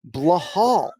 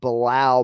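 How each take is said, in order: First: The name is said as blah-HAHL. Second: The name is said as bih-LAHL.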